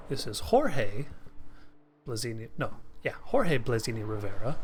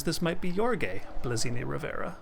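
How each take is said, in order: First: Jorge said with a Spanish H sound, "hor-hay"; Mexican Spanish pronunciation. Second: Jorge said with an English J, "jor-gay"; English-style pronunciation. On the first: Commentator shows viewers the Mexican Spanish name. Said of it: "if you're from America and you speak Mexican Spanish". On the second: Commentator shows how English speakers say the name. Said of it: "somebody from England ... Spain Spanish speakers". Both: Shown as a demonstration.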